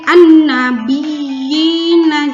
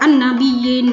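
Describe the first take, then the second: First: The doubled y is pressed and held. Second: The doubled y is rushed through quickly. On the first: The speaker calls it right. "ada tekanan pada ya yang bertasydid" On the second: The speaker calls it wrong. "jangan terlalu cepat"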